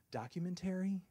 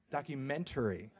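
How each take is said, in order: First: DOCUMENTARY said high and tentative; "documentary" pitched high like a question; questioning pronunciation. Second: DOCUMENTARY repeated more evenly, near usual pitch; second careful go at "documentary"; retried pronunciation. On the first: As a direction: try out the word DOCUMENTARY, unsure, pitched up. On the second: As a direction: correct yourself on the word DOCUMENTARY. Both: Real, not acted. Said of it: "Am I saying that right?".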